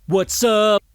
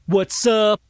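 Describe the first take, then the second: No difference in how they are said.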